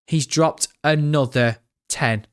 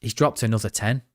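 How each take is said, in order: First: Slowed right down, stunned by the donation; to his chat, repeating the donation slowly in disbelief. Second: Said in the usual way. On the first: Real, not acted. Drag each word out, amazed.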